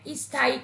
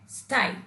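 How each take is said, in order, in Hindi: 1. पहले व्यंजन से पहले एक अतिरिक्त स्वर ध्वनि आती है। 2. शब्द सीधे व्यंजन समूह से शुरू होता है। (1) "इससे पहले ई स्वर का प्रयोग कर देते हैं और उसका गलत उच्चारण करते हैं" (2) "सही और शुद्ध उच्चारण होता है"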